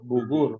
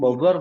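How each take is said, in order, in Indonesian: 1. Diucapkan dengan vokal u ala Arab. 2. Diucapkan dengan vokal o khas Indonesia.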